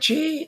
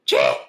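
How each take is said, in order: First: It is said softly, without throat force. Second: It is barked from the gut and throat.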